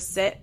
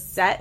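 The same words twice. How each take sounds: First: Said in the usual way. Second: "set" with an open eh vowel; "set" for sit. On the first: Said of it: "instead of "sit". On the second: Shown as a demonstration. Showing how Leah says sit, "set" with an eh. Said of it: "she says set instead of sit".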